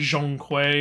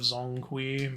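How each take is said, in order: First: The name has the full, harder consonant sound. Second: The name has a simpler, easier consonant sound. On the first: This is the technically correct form. "it's technically Zhongkui" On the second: This is the easier form to say. "instead of Zongkui"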